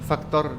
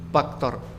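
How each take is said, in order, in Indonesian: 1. Kata ini diawali dengan bunyi F. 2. Kata ini diawali dengan bunyi P. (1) "bisa membedakan F sama P" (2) "Mereka mengatakan faktor dikatakan faktor"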